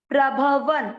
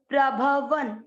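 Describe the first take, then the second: Both takes have the same delivery.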